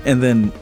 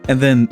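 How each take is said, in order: Both takes have the same delivery.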